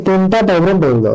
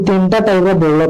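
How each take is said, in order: Both takes have the same delivery.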